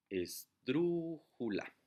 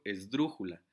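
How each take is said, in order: First: "esdrújula" very slowly as es... DRÚÚ... ju-la; syllable by syllable. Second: "esdrújula" in one go, DRÚ louder; stress on DRÚ. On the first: Teacher showing the stressed syllable, "esdrújula" slowly split with long DRÚ. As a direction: stretch "esdrújula" apart, holding a long DRÚ. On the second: Teacher giving an example word, "esdrújula" whole with stressed DRÚ. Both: Shown as a demonstration. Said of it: "la sílaba que suena más fuerte".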